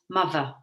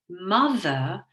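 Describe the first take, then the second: First: The middle sound is a v sound. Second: The middle sound is a th sound.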